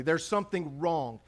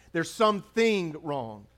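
First: Said in the usual way. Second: "There's something wrong" slowed, leaning on "something"; preacher driving "something" home slowly; slow emphatic repeat. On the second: Shown as a demonstration. Pastor repeating to the congregation, slow with weight on "something".

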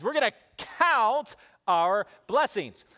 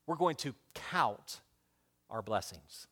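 First: Louder and slow, a rallying call; leading the church. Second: Soft, slow, low key point; quiet emphasis. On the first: Preacher leads the church in saying it, louder and slow. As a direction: call it out for all to repeat. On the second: Preacher giving his first key, soft and slow. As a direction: lay the phrase down gently. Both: Shown as a demonstration. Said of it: "Everybody say that with me".

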